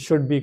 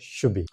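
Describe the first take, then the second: First: The d sound is clearly pronounced. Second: The d sound is dropped.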